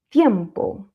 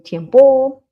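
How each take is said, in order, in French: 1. Le son i est bien appuyé, fermement. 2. Le son i est faible, pas appuyé. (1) "on va appuyer sur le i" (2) "on ne dit pas ... tiempo"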